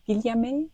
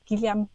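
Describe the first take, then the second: First: Amateur French accent with a rising end; attempted French accent. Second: Said in the usual way. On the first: Shown as a demonstration. Naming a French study's author, attempted French accent. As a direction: have a tentative go at it in French. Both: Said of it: "That's my attempt at a French accent".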